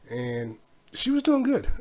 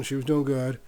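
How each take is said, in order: First: "doing" drawn out high and slow; stress on doing. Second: Said in the usual way. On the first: Real, not acted. Dad praising daughter's driving with "doing" stretched high. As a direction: lean on "doing" slowly at a high pitch.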